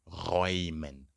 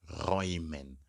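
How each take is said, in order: The two takes are said the same way.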